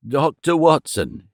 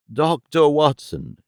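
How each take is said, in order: First: Slow, breathless stammer; out of breath, stammering. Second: Slow, urgent calling of the name; excited. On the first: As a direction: gasp the name out haltingly. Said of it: "he stammered". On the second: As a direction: call it out urgently. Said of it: "he repeated excitedly". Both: Acted.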